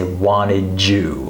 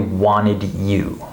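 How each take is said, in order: First: The D and Y merge into a J sound. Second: The D and Y are pronounced separately. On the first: The speaker calls it right. "We say wanted you" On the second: The speaker calls it wrong. "Native speakers do not say wanted you"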